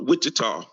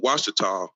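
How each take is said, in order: First: The name starts with a 'wich' sound. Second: The name starts with a 'wash' sound. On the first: The speaker calls it wrong. "just a mispronunciation of the Washita" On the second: The speaker calls it right. "which are the Washita"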